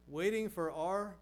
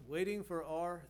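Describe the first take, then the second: No difference in how they are said.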